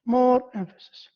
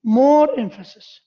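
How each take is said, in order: First: Said in the usual way. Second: "more" punched louder with a falling tune; stress on more. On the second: Shown as a demonstration. Teacher driving home a point to the class, stressing "more". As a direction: hit "more" hard, then let "emphasis" drop. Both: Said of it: "you give this clause".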